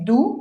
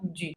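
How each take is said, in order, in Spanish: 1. La vocal es una u española, posterior y redondeada. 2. La vocal es una u francesa, anterior y redondeada. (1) "No es du como se ve" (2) "sino du"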